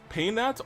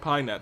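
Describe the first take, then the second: First: The first syllable sounds like the word pain. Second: The first syllable sounds like the word pie. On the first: It highlights that the character brings pain. "Paynet sounds better because it really enunciates the pain" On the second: It simply introduces the character. "But like Pi, you know, it's for Paimon"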